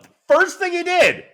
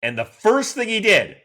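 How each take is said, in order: First: "the first thing he did" very high and loud; peak excitement. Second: "first thing he did" higher and louder; rising excitement. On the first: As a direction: squeal it out at the top of the build. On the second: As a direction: build up the thrill on "first". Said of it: "like, the first thing he did". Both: Real, not acted.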